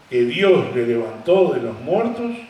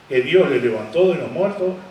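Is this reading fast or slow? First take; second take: slow; fast. First: It is read at a noticeably slower pace. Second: It is read at a normal, quicker pace.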